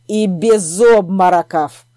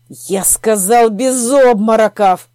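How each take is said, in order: First: Louder stern order, slow; stern command. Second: Louder, slow hissed order; hissed command. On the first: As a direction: bark the order slowly. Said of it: "добавил чёрный маг". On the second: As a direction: hiss the command through anger. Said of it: "прошипел лорд Оттенгрейд". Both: A narrator's reading.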